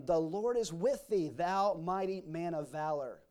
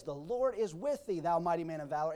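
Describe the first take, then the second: First: Slow, measured blessing; solemn proclamation. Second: Measured blessing, ending on a rise; solemn proclamation again. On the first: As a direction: bestow it like a blessing, slowing on the end. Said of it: "said unto him". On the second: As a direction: give it as a firm promise. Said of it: "but he says". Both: Acted.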